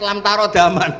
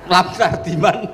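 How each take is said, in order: First: A vowel separates the r and d sounds. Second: The r and d run together without a vowel. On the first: The speaker calls it right. "ternyata itu di head lam tarodaman" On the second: The speaker calls it wrong. "ada orang tuh nggak tahu betul Gus maknane lam tardiman itu apa"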